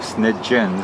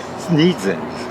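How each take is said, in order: First: The middle consonant is a 'j' sound. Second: The middle consonant is a 'z' sound. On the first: This is how the owner says the name. The speaker calls it right. "there's a G sound in there" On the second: This is how people usually read the name. The speaker calls it wrong. "Sneedzens is more or less how you would normally pronounce it"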